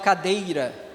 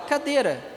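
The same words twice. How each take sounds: First: The diphthong is full, with the i glide. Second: The diphthong is reduced, with no i glide. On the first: People rarely say it this way. "Vocês falam assim? Não, é muito raro" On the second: This is how people say it day to day. "A gente fala cadeira"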